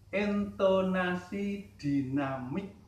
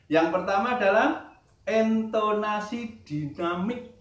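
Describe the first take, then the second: First: "intonasi dinamik" said slowly, each syllable drawn out; slow repeat. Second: Said in the usual way. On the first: Shown as a demonstration. Teacher repeating the term for students, slow and deliberate. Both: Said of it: "Saya ulangi".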